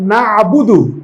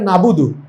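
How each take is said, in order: First: A throaty consonant sits before the middle vowel. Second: A plain vowel with no throaty consonant. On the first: The speaker calls it right. "আরবিতে এমন কিছু অক্ষর আছে যেটা বাংলায় উচ্চারণ করা যায় না" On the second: The speaker calls it wrong. "বাংলায় লিখলে হবে নাবুদু"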